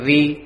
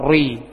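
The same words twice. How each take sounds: First: The r is light, without a heavy back quality. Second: The r is heavy, with a full back quality. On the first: "ri dia dibaca tipis" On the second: "nah itu tebal"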